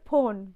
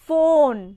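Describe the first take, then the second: First: It starts with an aspirated p sound. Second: It starts with a lip-teeth f sound. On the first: The speaker calls it wrong. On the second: The speaker calls it right.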